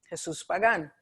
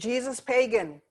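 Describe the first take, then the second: First: It is said with a Spanish accent. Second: It is said with an English accent. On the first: It is the person's real name. The speaker calls it right. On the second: It sounds like the English word for pagan. The speaker calls it wrong.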